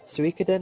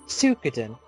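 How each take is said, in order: First: The first syllable keeps the 'i', like 'swee'. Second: The first syllable is a plain 'soo' sound. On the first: This is how the speaker says it. The speaker calls it right. "I would say Suikoden" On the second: Someone else says it this way. The speaker calls it wrong. "always called it Suikoden, but there's an I there"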